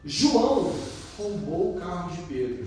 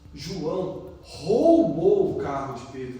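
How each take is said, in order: First: The emphasis falls on the word João. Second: The emphasis falls on the word roubou. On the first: It was João, of all people, who did it. "nossa, João fez isso?" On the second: The act of stealing is the point. "Nossa, ele roubou, que ato feio"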